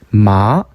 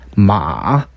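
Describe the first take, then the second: First: It is said with the second tone. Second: It is said with the third tone. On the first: It means a hemp plant. "산마, 식물이죠" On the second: It means horse. "말"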